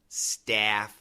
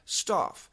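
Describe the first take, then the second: First: It is said in an American accent. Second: It is said in a British accent. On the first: "in basic American, typical American pronunciation" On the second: "The British pronunciation"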